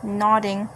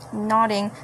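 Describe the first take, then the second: No difference in how they are said.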